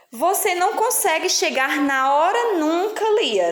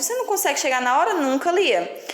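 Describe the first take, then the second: First: Amused reading. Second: Quick, with a questioning rise on Lia. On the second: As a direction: read it as a reproachful question. (lida como pergunta, rápida, subindo no fim) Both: Shown as a demonstration. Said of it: "Tá fazendo uma pergunta".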